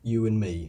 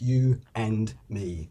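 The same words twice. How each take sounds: First: The words run together with a linking w sound. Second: Each word is said separately, without linking. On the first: "put them together naturally" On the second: "We've got three words"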